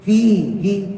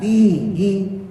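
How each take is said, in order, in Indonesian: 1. Vokal pertama dibacanya panjang. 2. Vokal pertama dibacanya panjang.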